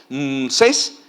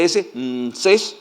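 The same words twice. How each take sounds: First: "Mses" said as one word, rising; whole word. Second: "S, Mses" said letter first then whole; spelled sounds. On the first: Preacher teaching the Egyptian sound, saying it whole. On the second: Preacher teaching the name's sound, spelling it out. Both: Shown as a demonstration. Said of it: "la fonética de la expresión Mses".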